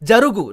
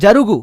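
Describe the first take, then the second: First: The middle consonant is a g sound. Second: The same.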